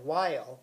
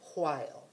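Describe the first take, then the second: First: It begins with a plain w sound. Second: It begins with a breathy wh sound. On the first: "instead of while" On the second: "they would say while"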